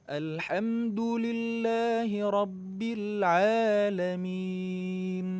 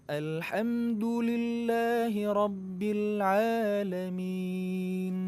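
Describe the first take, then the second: Both takes have the same delivery.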